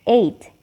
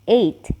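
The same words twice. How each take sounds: Both takes have the same delivery.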